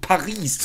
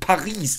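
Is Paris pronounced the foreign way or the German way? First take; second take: German; German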